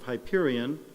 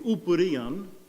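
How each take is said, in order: First: It begins with an h and a long i. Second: It begins with an oo vowel, no h. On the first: This is the usual English way to say it. "the way we pronounce it in English" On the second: This is closer to the original Greek. "the correct Greek would be"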